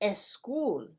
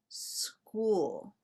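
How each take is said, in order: First: A short e vowel comes before the S. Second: It starts directly with the S sound. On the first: The speaker calls it wrong. "So we don't say school" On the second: The speaker calls it right. "we say school"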